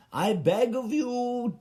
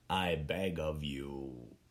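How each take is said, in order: First: High, slow theatrical plea, beg of pushed high; grand begging. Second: Lower, softer and slow, a hushed closing beg; soft final plea. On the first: Begging the HBO board in a grand high plea. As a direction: beg of you rising grandly like a courtier. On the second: Ending the letter to HBO with a quiet humble beg. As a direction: let the plea sink into a humble murmur. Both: Pretend. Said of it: "I was writing a letter".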